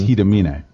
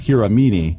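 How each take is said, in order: First: The name is said with Japanese pronunciation. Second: The name is said as English spelling suggests. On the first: This is how the name is actually said. "because it's Japanese, it's Hiramine" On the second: This is how the name looks when read. "when you look at it, it says Hiramine"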